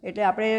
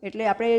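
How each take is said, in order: Both takes have the same delivery.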